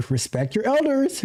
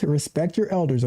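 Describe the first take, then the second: First: Respect your elders pitched high with a rise on elders; scolding emphasis, respect your elders lifted high; emphatic. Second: Said in the usual way. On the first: Shown as a demonstration.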